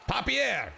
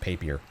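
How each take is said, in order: First: The name is said in a put-on French accent. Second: The name is said plainly, without any accent. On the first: "I'm totally making up that accent and the pronunciation of that name" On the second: "it's probably just Papier"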